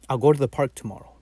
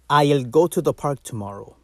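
First: The first word is a short, reduced 'ow'. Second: The first word is a full, clear 'I'll'. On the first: The speaker calls it right. "The second one sounds more natural" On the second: The speaker calls it wrong. "that's one"

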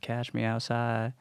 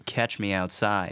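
First: The first word is said as cash. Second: The first word is said as catch. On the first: This is a slang form of the phrase. The speaker calls it wrong. "she is doing like a slang thing" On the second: This is the standard form of the phrase. The speaker calls it right. "it's supposed to be Catch Me Outside"

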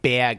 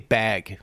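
First: It is said with a thick Midwest accent. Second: It is said without a Midwest accent.

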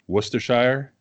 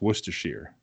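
First: The last syllable sounds like 'shire'. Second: The last syllable sounds like 'sheer'. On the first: This is how it is said in England. "So like in England" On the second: This is how it is said in New England. "In New England, we just changed the shire to sheer is all"

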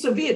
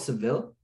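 First: The name ends with an 'eeya' sound. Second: The name ends with an 'eel' sound. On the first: This is the city's actual local name. The speaker calls it right. "It's Sevilla" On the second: This is what English speakers call it. The speaker calls it wrong. "the English especially, they call it Seville"

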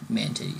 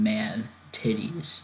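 First: The two words run together without a pause. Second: There is a pause after the first word. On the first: The two words form one compound name. The speaker calls it wrong. "not man titties" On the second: The first word is an exclamation on its own. The speaker calls it right. "I mean man titties"

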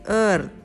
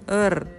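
No difference in how they are said.

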